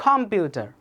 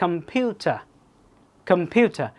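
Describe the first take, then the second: First: "computer" with a full, stressed first syllable, COM-pyu-ta; wrong word stress. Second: "computer" with unstressed first syllable, stress on the middle; natural word stress. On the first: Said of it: "সুন্দর লাগতো?". (ভুল স্ট্রেসে "computer", প্রথম সিলেবলে জোর) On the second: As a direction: say "computer" as com-PYU-ta, first vowel reduced. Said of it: "স্ট্রেসের কারণে". (স্বাভাবিক স্ট্রেসে "computer", মাঝের সিলেবলে জোর) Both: Shown as a demonstration.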